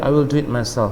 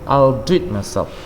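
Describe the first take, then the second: First: 'I will' is said as two full words. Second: 'I will' is shortened into one syllable. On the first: "Lebih sering mereka nggak mengatakan" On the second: "Maka mereka katakan"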